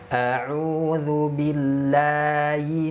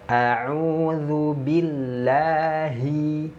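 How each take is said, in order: First: The h sound is faint and hard to hear. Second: The h sound is clear and distinct. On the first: The speaker calls it wrong. "jangan sampai membaca huruf H itu samar" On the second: The speaker calls it right.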